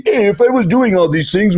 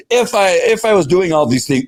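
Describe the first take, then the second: First: High-pitched, hammed-up Italian accent; excuse-making in a cartoonish Italian accent; mock Italian accent. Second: Said in the usual way. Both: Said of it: "that's my Italian accent".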